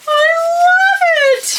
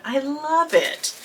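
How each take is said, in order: First: Much higher, louder delighted shriek; excited shriek. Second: Softer, slow awed murmur; soft hushed. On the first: Vlogger admiring the wrapped bag, shrieking with delight. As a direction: shriek it with pure joy. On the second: Vlogger admiring the wrapped bag, soft and awed. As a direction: say it under your breath in awe. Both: Real, not acted. Quiet then shrieked repeat.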